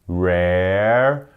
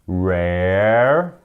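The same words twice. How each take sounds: The two takes are said the same way.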